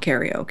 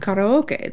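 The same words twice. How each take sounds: First: It is said with an Americanized pronunciation. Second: It is said with a Japanese-style pronunciation. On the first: The speaker calls it wrong. "it's not called karaoke" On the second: The speaker calls it right. "it's called karaoke. That's what it's called"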